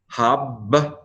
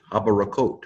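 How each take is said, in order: First: "Habrakot" pulled apart, first syllable closed on a doubled b. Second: Said in the usual way. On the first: Shown as a demonstration. Teacher showing a doubling dagesh, syllable by syllable. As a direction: sound it out as hab, ba, ra, kot. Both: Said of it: "the syllable needs to close".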